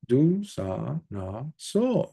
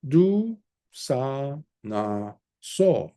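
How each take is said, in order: First: Said in the usual way. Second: Each syllable set apart by long pauses; slow ominous syllables. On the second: A narrator's reading. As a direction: let Du, sa, na, so hang one by one in the dark. Ominous syllables heard at night.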